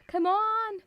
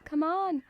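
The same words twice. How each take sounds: First: Higher, louder come on; exasperated. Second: Said in the usual way. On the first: Real, not acted. Come on thrown higher and louder at chat. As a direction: Come on pushed up high and loud.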